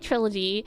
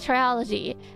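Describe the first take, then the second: First: The word has three syllables, tri-lo-gy. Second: The word has four syllables, tri-o-lo-gy. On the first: The speaker calls it right. "which I know is trilogy, and I can say trilogy" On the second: The speaker calls it wrong. "My brain wants to say triology"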